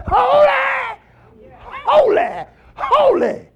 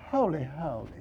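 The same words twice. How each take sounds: First: High, loud, ringing "Holy, holy, holy"; shouted holy. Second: Soft, falling "Holy, holy" said dully; flat, hushed holy. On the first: Preacher showing how the angels cry it out, shouting. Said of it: "And what they say, they say". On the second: Preacher showing how the angels did not say it, hushed. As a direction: say "Holy, holy" quietly, without fire. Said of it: "They didn't say". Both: Shown as a demonstration.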